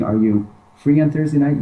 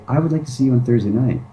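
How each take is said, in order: First: "Are you free on Thursday night?" asked as a question, pitch lifted on "free"; asking tune. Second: "I would like to see you on Thursday night." said as a firm statement, pitch settling down at the end; statement tune. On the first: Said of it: "Instead of saying". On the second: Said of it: "you say". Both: Shown as a demonstration.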